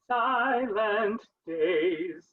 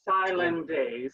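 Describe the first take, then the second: First: Both the T and the D are heard. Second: The T is dropped and only D is heard. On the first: The speaker calls it right. "So you have to do silent days" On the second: The speaker calls it wrong. "so we don't get silent days"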